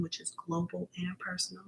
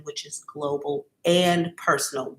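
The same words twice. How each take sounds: First: Whispered, voiceless repeat of the question; hushed reread of the question. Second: Said in the usual way. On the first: Acted. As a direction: breathe the question out in a hush. Reading a viewer's question.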